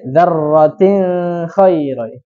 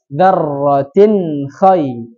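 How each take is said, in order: First: The n sound is blurred and nasalized into kh. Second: The n sound is pronounced clearly before kh. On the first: The speaker calls it wrong. "tidak boleh" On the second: The speaker calls it right. "makanya dibacanya jelas"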